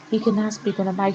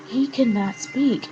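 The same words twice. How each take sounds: First: Said in the usual way. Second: He cannot speak, said slow and higher, every word weighed; exasperated stress on "cannot"; emphatic. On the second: Real, not acted. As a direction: drive home "he cannot speak" slowly. Vlogger emphasising his complaint.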